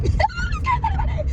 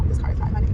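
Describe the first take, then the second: First: Giddy panicked giggle through the words; squealing laugh. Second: Breathy nervous hush; hushed whisper. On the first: Vlogger laughing nervously at the police car beside her, high squeal. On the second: Vlogger hiding from police beside her, nervous whisper. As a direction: whisper it so the cop won't hear. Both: Real, not acted.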